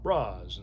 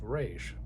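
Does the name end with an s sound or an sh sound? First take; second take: s; sh. First: The name ends with a plain s sound. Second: The name ends with an sh sound. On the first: It is how someone reading only the comics might say it. "you might actually pronounce it Roz" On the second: It is the pronunciation used for this foreign name. "instead of Raish"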